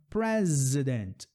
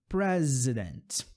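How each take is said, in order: Both takes have the same delivery.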